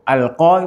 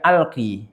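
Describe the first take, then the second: First: The word ends with an open 'a' vowel. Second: The word ends with an 'i' vowel. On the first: The final letter is read as alif. "Itu alqa berarti dia alif" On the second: The final letter is read as ya. "kalau iya berarti harusnya iya alqi"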